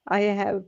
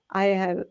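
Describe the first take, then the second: No difference in how they are said.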